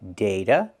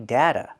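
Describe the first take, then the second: First: The first vowel is a long A, as in day. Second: The first vowel is a short A, as in cat. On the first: "You can use the long A sound, like day, and say data"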